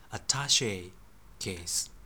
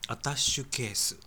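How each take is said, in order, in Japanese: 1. 真ん中は 'she' です。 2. 真ん中は 'shu' です。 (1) "実はアタッシェケースですね" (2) "実はこれ全部間違えています"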